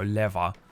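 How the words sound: It is said in a British accent. "Because I go leather"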